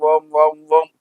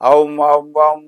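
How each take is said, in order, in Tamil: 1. உயிரெழுத்து ஒரே நிலையான 'o' ஆகும். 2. உயிரெழுத்து 'a' இலிருந்து 'u' நோக்கி நகரும். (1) "அது ஓம்னு மாறிடும்" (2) "ஔம் ஔம்னு சொன்னீங்கன்னா"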